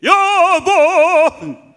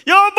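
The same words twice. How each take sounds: First: Loud, high, hugely drawn-out holler; husband's full-voiced call. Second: Very high, loud soprano shout; soprano wifely call. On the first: Husband freely calling his wife, long booming holler. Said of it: "남편으로 하여금 소리내게". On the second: Acted. Wife freely calling her husband, very high soprano shout. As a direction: belt it out as a soprano. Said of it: "소프라로".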